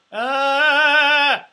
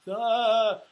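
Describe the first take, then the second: First: Loud high sung ah with the neck craned up; strangled high note. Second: Louder, higher open sung ah from strength; supported sung note. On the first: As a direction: reach up and choke the note, the wrong way. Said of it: "You're, you're strangling yourself". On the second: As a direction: sing it grounded and connected, the right way. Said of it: "position of strength like this". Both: Shown as a demonstration.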